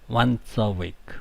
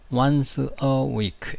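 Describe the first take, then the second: First: 'Once' runs straight into 'a'. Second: 'Once' and 'a' are said separately. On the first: The speaker calls it right. "이렇게 발음합니다" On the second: The speaker calls it wrong. "이렇게 발음하지 않고"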